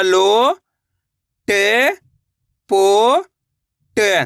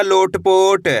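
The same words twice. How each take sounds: First: लो, टे, पो, टे each drawn out alone; long pause after each of लो, टे, पो, टे; syllable by syllable. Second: Said in the usual way. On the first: Shown as a demonstration. Teacher building a word for learners, लो, टे, पो, टे sounded out one by one. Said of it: "एक एक अक्षर का उच्चारण करके". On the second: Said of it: "तो मिलके बन जाएगा".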